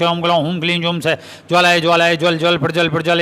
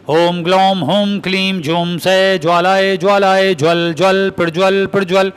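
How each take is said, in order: First: It is read plainly without a rhythmic beat. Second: It is recited with a steady rhythmic beat. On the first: The mantra has no effect this way. The speaker calls it wrong. "इस rhythm में पढ़े बगैर वैसे ही पढ़ोगे" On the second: The mantra is effective this way. The speaker calls it right. "इसी rhythm में पढ़नी चाहिए"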